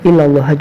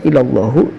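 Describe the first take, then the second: First: The word ends on the h consonant. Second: The word ends with a final u vowel. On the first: "dibaca illallah juga boleh" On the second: "Sebenarnya ini boleh dibaca illallahu"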